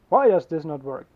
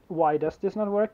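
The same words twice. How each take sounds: First: It is asked in a sharp, blaming tone. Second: It is asked as a plain, neutral question. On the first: The listener is blamed for the failure. "They're basically blaming you for it not working" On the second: The speaker simply wants to know the reason. "they will not just ask"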